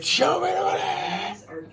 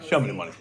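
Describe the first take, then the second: First: It is said with passion and conviction. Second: It is said flatly, without conviction.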